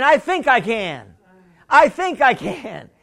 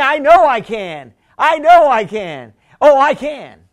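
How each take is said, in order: First: Said in the usual way. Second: "I know I can" said louder, "know" stressed; louder declaration. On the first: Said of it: "You just gotta start saying". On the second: Shown as a demonstration. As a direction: declare it with full conviction. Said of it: "And then".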